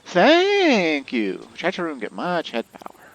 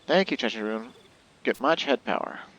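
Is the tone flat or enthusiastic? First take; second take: enthusiastic; flat. First: It is read with lively enthusiasm. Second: It is read flatly, without enthusiasm.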